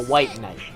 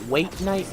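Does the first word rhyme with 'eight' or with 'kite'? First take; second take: kite; eight. First: The first word rhymes with kite. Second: The first word rhymes with eight. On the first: The speaker calls it right. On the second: The speaker calls it wrong. "The thing isn't called a weight knight like I"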